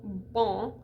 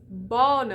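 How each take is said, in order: First: The vowel is nasal with no final consonant. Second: The vowel is oral with a clear final n. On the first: The speaker calls it wrong. "It's not nasal" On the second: The speaker calls it right. "It's bonne"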